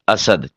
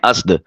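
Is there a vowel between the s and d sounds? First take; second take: yes; no. First: A short a vowel separates s and d. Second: The s runs straight into d without a vowel. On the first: The speaker calls it right. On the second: The speaker calls it wrong.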